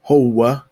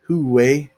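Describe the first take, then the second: First: It is said with an o vowel, ending in a. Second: It is said with an u vowel, ending in e. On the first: This is how it is said in Egypt. "in Egypt usually sounds more like howa" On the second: This is how it is said in Syria, Palestine and Lebanon. "in Syria they'll say it huwe"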